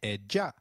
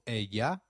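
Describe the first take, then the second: First: The double L sounds like a soft J. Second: The double L sounds like an English Y. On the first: This is how it is said in other regions. "a soft J in others" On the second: This is how it is said in some regions. "the sound of Y in some areas"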